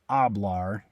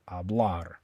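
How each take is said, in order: First: The stress is on the first syllable. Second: The stress is on the last syllable. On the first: The speaker calls it wrong. "you don't stress the first part. You don't say hablar" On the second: The speaker calls it right. "You stress the last syllable, hablar"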